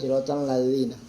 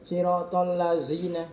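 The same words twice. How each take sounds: First: The consonant in lazina is a soft dh. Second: The consonant in lazina is a buzzing z. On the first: The speaker calls it right. "harusnya kan siratal lazina" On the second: The speaker calls it wrong. "zai zai, kan lain zal"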